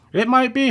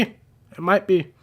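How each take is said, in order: First: It might be said high and questioning, rising on be; surprised guess. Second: It might be said slowly, falling on be; slow confirming. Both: Real, not acted.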